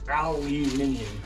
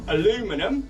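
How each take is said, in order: First: The word is said in a British way. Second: The word is said in an American way. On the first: "I pronounce it aluminium" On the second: "for our American viewers"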